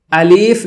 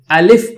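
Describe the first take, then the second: First: الف with the second vowel stretched, "aleef"; wrong pronunciation. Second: الف with a short second vowel, "alif"; correct pronunciation. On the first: Teacher showing students what to avoid, الف with a long ee. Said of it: "الف نہیں پڑھیں گے". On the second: Teacher showing students the right reading, الف with short i. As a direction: say الف short, without stretching the i. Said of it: "الف پڑھیں گے۔". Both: Shown as a demonstration.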